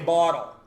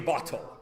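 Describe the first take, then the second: First: The middle consonant is a soft D sound. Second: The middle consonant is a crisp T sound. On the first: "We say bottle. We say battery, B A D D E R Y" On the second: "You do not say bottle"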